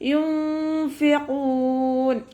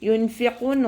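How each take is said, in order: First: The n is hidden in a nasal hum. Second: The n before the f is clearly pronounced. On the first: The speaker calls it right. "യുംഫിഖൂൻ അതുപോലെ ഓതുക" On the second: The speaker calls it wrong. "യുൻഫിഖൂൻ ഓതിപ്പോവരുത്"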